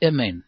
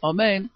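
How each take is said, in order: First: The first vowel is a short reduced sound. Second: The first vowel is a full a sound. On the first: The speaker calls it wrong. "בחטב, כלומר בשבו" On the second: The speaker calls it right. "כמו שאנחנו אומרים, בקומץ"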